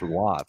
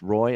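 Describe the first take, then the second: First: The name sounds like wah. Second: The name rhymes with boy. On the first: "some people want it pronounced Waugh" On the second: "Some people want it pronounced Roy"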